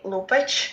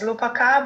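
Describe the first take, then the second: First: The name ends with a consonant sound. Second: The name ends with a final vowel sound. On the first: This is how the name is really pronounced. The speaker calls it right. "but actually Lupac" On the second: This is how the spelling suggests it is read. The speaker calls it wrong. "which pronounces as Lupaca"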